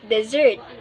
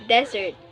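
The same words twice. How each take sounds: First: The stress is on the second syllable. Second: The stress is on the first syllable. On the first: It means to leave without intent to return. "But if it is a verb, you should pronounce it as desert" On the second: It names an arid land with sparse vegetation. "If you use it as a noun, you should pronounce it as desert"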